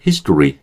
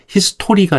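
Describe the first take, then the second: First: "history" as HIS-dri, middle vowel reduced; English history. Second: "history" as hi-seu-TO-ri, full o vowel; Korean-style history. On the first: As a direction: say "history" with tense t, weak middle. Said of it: "history 이 정도 하면 되고요". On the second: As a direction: say "history" syllable by syllable. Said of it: "history가 아니라 history". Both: Shown as a demonstration.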